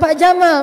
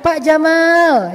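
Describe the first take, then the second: First: The last vowel of Jamal is short. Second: The last vowel of Jamal is drawn out long. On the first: It calls the man a camel. The speaker calls it wrong. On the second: It calls the man handsome. The speaker calls it right. "Kok panjang sih? Biar benar"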